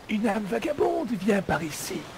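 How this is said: It is said in a Fort Boyard-style voice.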